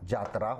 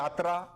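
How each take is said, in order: First: The word begins with a 'j' sound. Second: The word begins with a 'y' sound. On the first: This is how village Nagpuri speakers say it. "तो यही कभी कभी जात्रा हो जाता है" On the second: This is the standard Hindi form. "या को जा में बोला जाता है, जैसे कि यात्रा"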